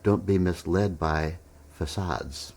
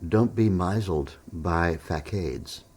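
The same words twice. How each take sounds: First: MISLED as "miss-LED", FACADES as "fuh-SAHDZ"; corrected pronunciation. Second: MISLED as "MY-zuld", FACADES as "fack-AIDS"; slow, confident misreading, MISLED like "mizzled" with a long i, FACADES rhyming with arcades; mispronounced words. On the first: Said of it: "You meant". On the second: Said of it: "facade isn't pronounced facade". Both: Retold or imitated.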